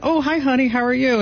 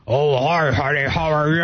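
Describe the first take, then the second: First: High, singsong hello to a spouse; sweet greeting. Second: Imitating prankster son. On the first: Retold or imitated. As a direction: re-enact a sweet high-pitched phone greeting. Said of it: "and I went". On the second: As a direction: mimic the son posing as her husband. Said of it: "That's a dead-on impression".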